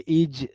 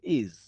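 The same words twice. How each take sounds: First: The word ends with a hard 'j' sound. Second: The word ends with a soft 'z' sound. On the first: The speaker calls it wrong. "ऐसे एकदम hard ज नहीं बोलते" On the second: The speaker calls it right. "हल्का सा ज"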